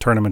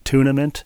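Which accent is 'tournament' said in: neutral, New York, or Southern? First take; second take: neutral; Southern. First: It is said in a plain, neutral accent. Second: It is said with a slow Southern drawl. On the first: "pronouncing tournament" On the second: "some drawly Southern person pronouncing tournament as tournament"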